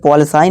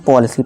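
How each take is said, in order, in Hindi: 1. आखिरी स्वर 'eye' जैसा सुनाई देता है। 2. आखिरी स्वर 'ee' जैसा सुनाई देता है। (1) "इसे पॉलिसाई नहीं पढ़ेंगे" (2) "इसे हम पॉलिसी पढ़ेंगे"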